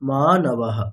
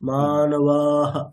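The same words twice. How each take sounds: First: The vowel before the final h is kept short. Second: The vowel before the final h is stretched long. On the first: The speaker calls it right. "ওটা হ্রস্ব আছে, তাহলে এটা টানা যাবে না" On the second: The speaker calls it wrong. "মানবাহ এরকম বলা যাবে না"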